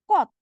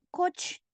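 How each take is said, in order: First: The word ends with a T sound. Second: The word ends with a CH sound. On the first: The speaker calls it right. "tapi kot" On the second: The speaker calls it wrong. "bacanya bukan coach, bukan"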